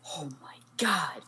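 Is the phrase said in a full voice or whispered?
whispered. It is said in a hushed whisper.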